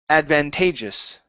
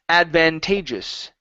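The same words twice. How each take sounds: Both takes have the same delivery.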